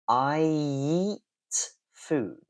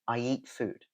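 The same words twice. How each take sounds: First: It is said slowly with an exaggerated linking y. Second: It is said quickly with a light linking y. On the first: "Now I'm going to really exaggerate it for you" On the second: "if you go quickly"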